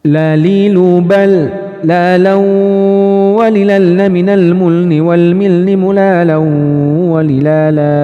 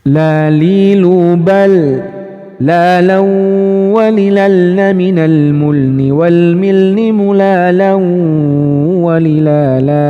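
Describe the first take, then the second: First: It is recited at a very fast speed. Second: It is recited at a fast speed. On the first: "cepetin lagi teman-teman" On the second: "Satu level di atasnya lagi speednya"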